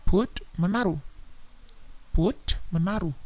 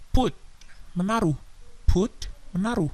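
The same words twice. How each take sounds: The two takes are said the same way.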